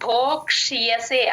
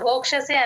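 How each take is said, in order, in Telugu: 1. 'ksh' తర్వాత 'y' శబ్దం స్పష్టంగా వినిపిస్తుంది. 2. 'ksh' తర్వాత 'y' శబ్దం వినిపించదు. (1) "ఆ యా క్లియర్ గా వినిపించాలి" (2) "ఆ యా వినిపించకుండా భోక్షసే అనేస్తారు అందరూ. అలా అనకూడదు"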